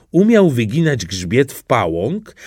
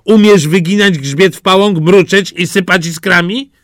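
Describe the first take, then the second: First: Said in the usual way. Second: Loud, higher, haughty cat; a superior cat quizzing the duckling; cat's voice, raised and higher; smug cat. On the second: Acted. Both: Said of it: "A kot zapytał".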